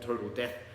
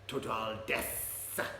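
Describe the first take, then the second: First: The last word ends with a th sound. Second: The last word ends with an s sound.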